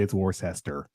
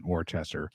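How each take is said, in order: First: "Worcester" said as wor-SESS-ter; soft-c pronunciation. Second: "Worcester" said as wor-CHESS-ter, low and soft; ch pronunciation. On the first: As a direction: say "Worcester" in three syllables with an s in the middle. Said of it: "they mispronounce the Celtics". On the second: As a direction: say "Worcester" with a ch in the middle. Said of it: "more than likely it's Worcester". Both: Shown as a demonstration.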